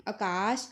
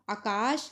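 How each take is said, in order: First: आकाश said as akaash, short start; Punjabi short vowel. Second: आकाश with long opening aa; double long vowel. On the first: Teacher showing the correct form, आकाश with short start. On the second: Teacher showing the incorrect form, long-vowelled आकाश. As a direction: hold both vowels of आकाश. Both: Shown as a demonstration. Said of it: "आ दी मात्रा दो बार प्रयोग नहीं".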